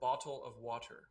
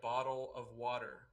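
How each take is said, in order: First: The middle consonant of bottle is a T sound. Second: The middle consonant of bottle is a D sound. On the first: This is how people outside North America say it. "anywhere else in the world, it's called" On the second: This is how people in the US and Canada say it. "That is a D sound. That's not a T sound"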